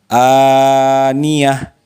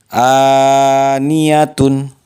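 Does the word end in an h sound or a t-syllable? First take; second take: h sound; t-syllable. First: The word ends with a soft h sound. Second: The word ends with a full -tun syllable. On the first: Reading stops at this word. "ketika diwakafkan dibaca aniyah" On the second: Reading continues without stopping here. "Sekali lagi"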